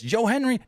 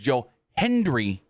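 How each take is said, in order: First: The surname is said without a D sound. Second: The surname is said with a D sound. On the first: The speaker calls it wrong. "Michael Cole kept saying" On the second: The speaker calls it right. "His name is Joe Hendry, not Henry"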